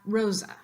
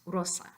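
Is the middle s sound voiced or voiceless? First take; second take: voiced; voiceless. First: The middle s is buzzed and voiced. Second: The middle s is hissed and voiceless. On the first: The speaker calls it wrong. "not rosa" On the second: The speaker calls it right. "the correct pronunciation in Espanol is rosa"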